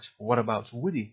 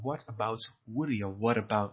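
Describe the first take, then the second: First: "What about Woody" slow, t flowing into "about"; linked t. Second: "What about" slowly, with the t linked into "about"; linked pronunciation. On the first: Teacher repeats the linked phrase for students. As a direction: run "What about" together as one word. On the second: Teacher shows how "What about" links together. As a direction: join "What" and "about" into one word. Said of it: "شوفش با هم تلفظ کنیم". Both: Shown as a demonstration.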